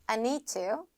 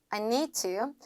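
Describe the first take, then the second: No difference in how they are said.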